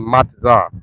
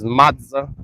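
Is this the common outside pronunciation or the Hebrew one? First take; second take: Hebrew; outside. First: It uses the speaker's Hebrew pronunciation. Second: It uses the common outside pronunciation. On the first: This is how the speaker's own group says it. "We we say matzah" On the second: This is how another group says it. "Amalek says matzah"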